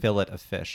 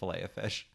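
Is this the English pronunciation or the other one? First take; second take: English; other. First: It is said the way English speakers say it. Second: It is said the other, non-English way. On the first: The speaker calls it wrong. "they also say fillet of fish" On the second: The speaker calls it right. "instead of fillet of fish"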